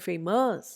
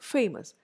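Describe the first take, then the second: First: The stress is on the second syllable. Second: The stress is on the first syllable. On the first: The speaker calls it wrong. "I don't say famous" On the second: The speaker calls it right. "first syllable ആയിരിക്കും stressed"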